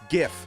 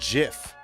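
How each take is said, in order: First: The word starts with a hard G sound. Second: The word starts with a J sound. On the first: The speaker calls it right. "It's GIF" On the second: The speaker calls it wrong. "not GIF, ... Otherwise, it would have been spelled with a J"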